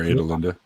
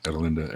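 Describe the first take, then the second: First: "Adelinda" starting with long A, as in "aid"; long-a pronunciation. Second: "Adelinda" starting with short a, as in "add"; short-a pronunciation. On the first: Offering the other way to say the name, "Adelinda" with a long first A. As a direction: say "Adelinda" with "ay-d" at the front. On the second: Weighing how to say the name, "Adelinda" with a short first a. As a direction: say "Adelinda" with "ad" at the front. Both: Shown as a demonstration. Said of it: "that's how that's pronounced".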